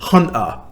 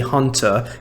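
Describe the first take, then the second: First: The T sound is dropped. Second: The T sound is clearly pronounced. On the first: "he said Hunter, so he skips the letter T" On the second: "I say Hunter"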